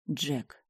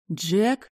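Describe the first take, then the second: First: "Джек." said softly with a falling tune; falling statement. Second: "Джек?" rising, louder and higher; "Джек?" asked in disbelief, rising tune; questioning rise. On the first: Узнаёт Джека, спокойно утверждает. (тихо, с понижением: «Джек.») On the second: Не верит, что это Джек. (вопросительно, с подъёмом: «Джек?») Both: A narrator's reading.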